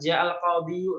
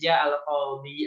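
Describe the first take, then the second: First: The last word ends with a full 'yu' syllable. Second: The last word ends on a plain 'i' sound. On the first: This is the full underlying form, which is heavy to say. "aslinya bisa" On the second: This is the lightened form that is easier to say. "lebih ringan"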